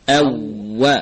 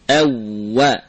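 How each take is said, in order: The two takes are said the same way.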